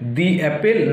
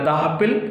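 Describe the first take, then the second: First: 'The' is said with an ee vowel. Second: 'The' is said with an uh vowel. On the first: The speaker calls it right. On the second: The speaker calls it wrong.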